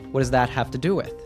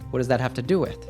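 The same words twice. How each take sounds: The two takes are said the same way.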